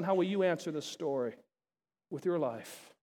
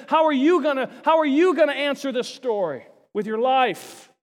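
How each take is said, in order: First: Softer, sinking into an intimate hush; quiet personal question. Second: Loud, pressing challenge to the crowd; challenging question. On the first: Real, not acted. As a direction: lay it gently on each listener. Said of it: "So I throw that out to you". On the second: Acted. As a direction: hurl the question at them. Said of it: "he leaves the story and said".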